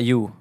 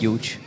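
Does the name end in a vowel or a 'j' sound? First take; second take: vowel; 'j' sound. First: The name ends on a plain vowel sound. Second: The name ends with a 'j' sound. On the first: The speaker calls it right. "Ah, Hugh" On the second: The speaker calls it wrong. "nicht Huge"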